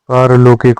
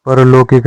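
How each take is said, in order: First: पारलौकिक said with a long "paar" at the start; the correct form पारलौकिक, "paar-laukik"; correct pronunciation. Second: परलौकिक said with a short "par" at the start; the incorrect form परलौकिक, "par-laukik"; wrong pronunciation. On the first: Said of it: "पारलौकिक होता है". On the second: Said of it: "परलौकिक नहीं होता". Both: Shown as a demonstration.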